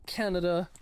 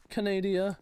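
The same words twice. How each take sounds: First: Said in the usual way. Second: Canada said as ka-NAY-dee-uh; playful mispronunciation. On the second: Pretend. Repeats it as a joke variant.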